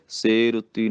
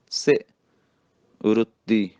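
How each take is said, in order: First: ਸੇ ਰੁੱਤੀ with ਸੇ as long "say"; quick ਸੇ ਰੁੱਤੀ, full e in ਸੇ. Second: ਸੇ clipped to "si", pause, then tight ਰੁੱਤੀ; short ਸੇ, firm double t in ਰੁੱਤੀ; short i, tight consonant. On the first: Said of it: "ਸੇ ਰੁੱਤੀ ਨਹੀਂ ਕਹਿਣਾ". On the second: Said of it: "ਸੇ ਸਿਹਾਰੀ ਦੇ ਨਾਲ ਬੋਲਣਾ". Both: Shown as a demonstration.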